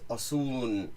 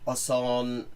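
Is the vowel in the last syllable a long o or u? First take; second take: u; long o. First: The last vowel is an u sound. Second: The last vowel is a long o sound. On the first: This is the informal spoken form. "become an u sound" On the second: This is the formal form. "in proper formal speech have a long o sound"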